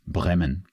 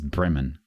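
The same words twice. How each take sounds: First: The name is said with a German vowel. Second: The name is said with an English vowel. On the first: The speaker calls it wrong. "not Bremen" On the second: The speaker calls it right. "It is Bremen"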